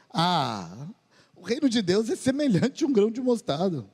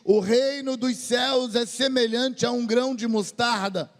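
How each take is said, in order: First: It is said with a sarcastic tone. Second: It is said sincerely, without sarcasm.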